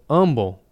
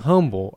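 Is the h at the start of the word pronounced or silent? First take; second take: silent; pronounced. First: The word starts without an h sound. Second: The word starts with an h sound. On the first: The speaker calls it right. "when I was growing up, it was called humble" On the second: The speaker calls it wrong. "you're saying humble"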